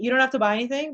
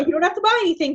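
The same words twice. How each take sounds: First: It sounds calm and confident. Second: It sounds anxious and unsure.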